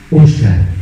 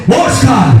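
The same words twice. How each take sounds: First: God's voice, very low; deep divine call. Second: Imitated shout of a name; sudden call. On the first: Retold or imitated. Preacher retelling God calling him while praying, deep solemn call. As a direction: say the name low and weighty. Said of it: "se me pone y me dice". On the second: Preacher retelling a voice calling him in his sleep, sudden shout. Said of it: "escucho una voz que me dice".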